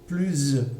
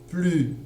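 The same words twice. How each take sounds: First: The word ends with a z sound. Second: The word ends without a z sound. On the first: A vowel follows, so the sounds link. "c'est-à-dire avec le, le son Z" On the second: A consonant follows, so there is no link. "Je n'entends pas le S"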